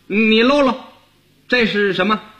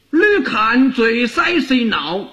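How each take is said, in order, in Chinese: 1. 说的是北京话。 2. 说的是福州话。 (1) "你要用北京话说就跟这不一样了" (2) "那福建话这句话怎么说呢"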